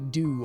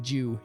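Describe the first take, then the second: First: It is said the American way, like 'do'. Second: It is said with a 'j' sound, like 'Jew'.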